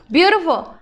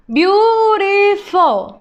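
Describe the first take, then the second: First: Said in the usual way. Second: Beautiful drawn out slowly, higher and louder; slow modelling voice; slow syllable-by-syllable. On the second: Shown as a demonstration. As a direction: sound out beautiful for the class. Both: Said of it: "teacher models word then slows".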